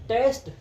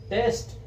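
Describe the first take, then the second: The two takes are said the same way.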